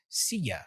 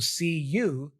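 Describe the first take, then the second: First: The word you is reduced to ya. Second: The word you is said with a full vowel.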